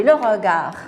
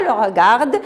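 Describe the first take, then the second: First: Regard ending on the r, no d; silent final D. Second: Regarde with an audible d at the end; final D wrongly pronounced. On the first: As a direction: drop the D at the end of regard. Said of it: "mais on dit le regard". (regard avec le D final muet) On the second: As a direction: sound the D ending regarde. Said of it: "Je dis pas le regarde". (regarde avec le D final prononcé) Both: Shown as a demonstration.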